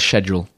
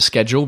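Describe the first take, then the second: First: The word is said the British way. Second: The word is said the American way. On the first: "the British way is schedule" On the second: "I still pronounce it schedule because ... maybe I was used to working at Apple with Americans"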